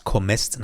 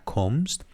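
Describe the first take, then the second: First: کمست in one syllable, "komst"; correct German pronunciation. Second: Second کمست set against the first, the vowel before st changed; contrasted pronunciation. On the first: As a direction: close m straight onto st in کمست. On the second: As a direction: contrast کمست, komst versus komest. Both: Shown as a demonstration. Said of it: "نه کمست".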